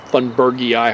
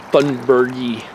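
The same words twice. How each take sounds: First: "thunbergii" with an added "eye" at the end. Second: "thunbergii" ending in a single "ee" sound. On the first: Hiker unsure of the Latin name, "thunbergii" said as thun-ber-gee-eye. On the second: Hiker naming an invasive barberry, "thunbergii" said as thun-ber-gee. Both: Shown as a demonstration. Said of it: "however you're supposed to pronounce it".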